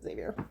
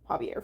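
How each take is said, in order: First: The name begins with a Z sound. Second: The name begins with an H-like sound. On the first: This is a habitual slip. The speaker calls it wrong. "accidentally pronounce it Xavier" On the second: This is how the author says the name. The speaker calls it right. "remember to call him Javier from now on"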